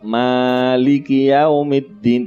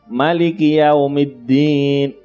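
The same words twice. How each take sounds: First: The first vowel of Maliki is long. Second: The first vowel of Maliki is short. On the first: "dibaca panjang" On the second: "kok pendek?"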